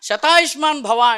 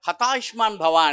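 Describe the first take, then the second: First: The phrase starts with an sh sound. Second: The phrase starts with an h sound.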